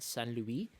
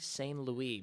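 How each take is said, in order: First: The name is said with a Quebec French pronunciation. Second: The name is said with an English pronunciation.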